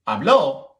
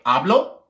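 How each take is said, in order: First: The stress is on the last syllable. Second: The stress is on the first syllable. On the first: Someone else talked in the past. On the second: I talk now or every day.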